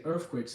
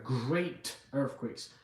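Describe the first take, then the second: First: Said in the usual way. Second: Great earthquakes drawn out, very slow, stress on great; slow and weighty, great earthquakes stressed; emphasis on great. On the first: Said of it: "emphasis on the word". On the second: Shown as a demonstration. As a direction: lean hard on great in great earthquakes, slowly. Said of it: "emphasis on the word, great earthquakes".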